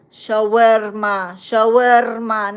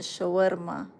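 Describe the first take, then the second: First: Shawarma said louder and slow, clear sh, show-AIR-ma; correct pronunciation. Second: Shawarma said quiet and mumbled, ch-like start, as they say it; mock mispronunciation. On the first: Shown as a demonstration. Correcting Israelis on the dish's name, loud and slow. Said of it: "not shawarma". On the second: Mocking an Israeli mispronouncing the dish, quietly mumbled. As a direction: mumble Shawarma the wrong way, tʃow-ir-ma. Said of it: "you can't even pronounce it".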